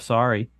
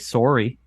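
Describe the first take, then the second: First: It is said in a standard accent. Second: It is said in a Wisconsin accent.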